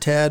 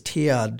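First: The vowel is short and clipped. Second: The vowel is drawn out into two parts. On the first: "It's just Ted" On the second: "for some reason we draw it out here"

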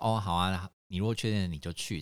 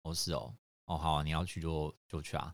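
First: It sounds relaxed and genuinely agreeable. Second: It sounds grudging, with a hidden displeased edge.

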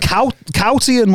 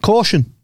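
First: The first syllable sounds like 'cow'. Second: The first syllable sounds like 'caw'. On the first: This is a childhood misreading of the word. The speaker calls it wrong. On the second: This is the standard way to say the word. The speaker calls it right.

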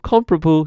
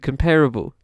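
First: The stress falls on the first syllable. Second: The stress falls on the second syllable. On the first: "Which seems to be shifting from comparable" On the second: "to comparable"

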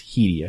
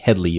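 First: The name has no L sound before the ending. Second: The name has an L sound before the ending. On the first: The speaker calls it right. "it's Headey, I think" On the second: The speaker calls it wrong. "It's not like Headley"

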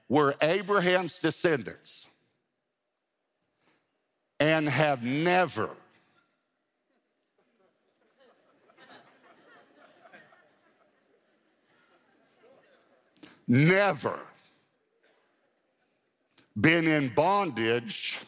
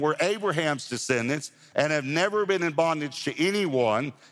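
First: It is read slowly and deliberately. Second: It is read at a normal pace.

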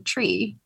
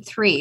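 First: The word starts with a t sound. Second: The word starts with a th sound. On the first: "I say tree. Like, I think it's just an Irish thing" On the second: "I don't say three"

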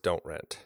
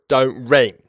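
First: It is read in the speaker's ordinary voice. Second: It is said in a put-on character voice.

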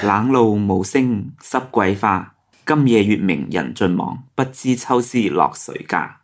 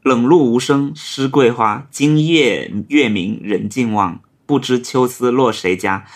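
First: The poem is recited in Cantonese. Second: The poem is recited in Mandarin.

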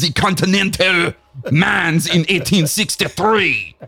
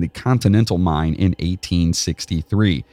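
First: It is read in a fake French accent. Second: It is read in a plain accent.

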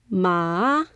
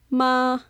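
First: The pitch dips down and then rises. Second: The pitch stays flat and level. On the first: It means horse. "So it goes up, then down, then up" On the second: It means mother. "The first tone is ma. You can think of having your arm flat"

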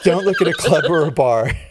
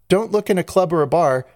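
First: It is said in a deep, raspy smoker voice. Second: It is said in her normal voice.

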